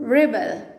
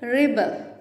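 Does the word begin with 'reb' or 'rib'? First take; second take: rib; rib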